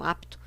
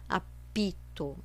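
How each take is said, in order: First: No vowel follows the p. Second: An extra i vowel follows the p. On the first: The speaker calls it right. "A letra é muda" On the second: The speaker calls it wrong. "não pronuncia apito"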